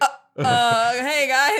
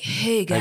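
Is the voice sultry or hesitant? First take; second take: hesitant; sultry. First: It is said hesitantly, in a flustered voice. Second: It is said in a sultry, sexy voice.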